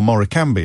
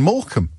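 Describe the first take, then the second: First: The name is pronounced in an exotic foreign style. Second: The name is pronounced in a plain ordinary way. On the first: This makes the place sound more exotic. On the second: This is the ordinary name of the place.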